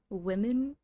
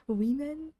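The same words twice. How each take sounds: First: "Women?" said as wi-men with a short i, asked loudly; "Women?" with a lax short i sound; standard pronunciation. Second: "Women?" said as wee-men with a long ee, loud and higher; trendy mispronunciation. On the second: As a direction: stretch the first vowel of "Women?" into ee. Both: Shown as a demonstration. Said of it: "pronouncing women like women".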